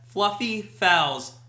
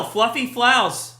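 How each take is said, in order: First: FLUFFY FOULS slowly, each word set apart; slow and careful. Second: FOULS slurred towards "flouse", picking up the L of FLUFFY; tongue-twister stumble. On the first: Shown as a demonstration. Streamer retries the tongue-twister, FLUFFY FOULS slow and careful. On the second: Real, not acted. Streamer reads a chat phrase, tongue tripping on FOULS. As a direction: trip over FOULS after FLUFFY. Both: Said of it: "I can't try to say that fast".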